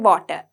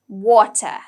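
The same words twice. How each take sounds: First: The first sound is not a clear w. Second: The first sound is a clear w. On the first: The speaker calls it wrong. "We don't say water" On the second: The speaker calls it right. "We say w, water"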